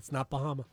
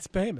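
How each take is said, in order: First: The name is said the outsider way. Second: The name is said the local way. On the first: The speaker calls it wrong. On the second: The speaker calls it right.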